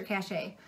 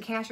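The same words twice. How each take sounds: First: Cachet said ka-SHAY, stress at the end; pronunciation test. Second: Cash said as one syllable, like money; pronunciation test. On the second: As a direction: say cash, rhyming with flash. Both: Shown as a demonstration. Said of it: "am I saying it right?".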